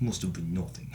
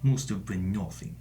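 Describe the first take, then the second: First: Low, dull guard line; video game guard. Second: Low, flat soldier voice; bored patrol guard dismissing a noise; video game guard. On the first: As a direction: shrug it off like a bored guard. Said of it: "they'd be like". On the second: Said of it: "the Metal Gear Solid guards". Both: Retold or imitated.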